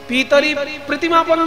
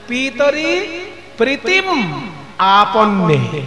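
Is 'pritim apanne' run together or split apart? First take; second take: run together; split apart. First: The last words are run together as one. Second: The last words are split into two parts. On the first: The speaker calls it wrong. "একসঙ্গে বলবেন না" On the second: The speaker calls it right. "একটু সন্ধি করে বলবেন"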